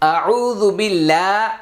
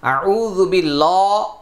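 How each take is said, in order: First: The L in billah is light and thin. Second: The L in billah is heavy and dark. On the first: The speaker calls it right. "সহিহ" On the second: The speaker calls it wrong. "ভুল"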